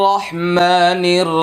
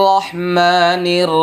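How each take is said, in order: No difference in how they are said.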